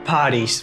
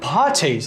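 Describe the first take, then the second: First: It is said in an American accent. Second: It is said in a British accent. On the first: "Você não vai ouvir ninguém falando parties" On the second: "Vai ouvir os caras falando parties"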